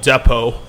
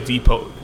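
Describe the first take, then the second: First: It is pronounced the British way. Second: It is pronounced the American way. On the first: "I think the British would actually call it Depot" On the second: "They don't say Depot"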